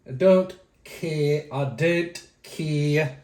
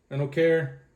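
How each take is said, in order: First: Very slow, drawn-out put-on delivery; exaggerated slow repeat. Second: Said in the usual way. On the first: Vlogger brushing off viewers' opinions, exaggeratedly slow. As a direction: drag every word out playfully.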